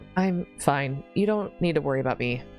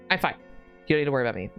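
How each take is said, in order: First: It is said in a calm, mild tone. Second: It is said in a sharp, irritated tone. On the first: The speaker calls it wrong. "oh, maybe I read that wrong" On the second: The speaker calls it right. "Your tone comes out sharper than you intended, edged with irritation"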